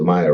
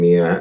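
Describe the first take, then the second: First: The name begins with a 'my' sound. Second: The name begins with a 'mee' sound. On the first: The speaker calls it right. "you guys pronounce it Maya" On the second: The speaker calls it wrong. "I keep saying Mia"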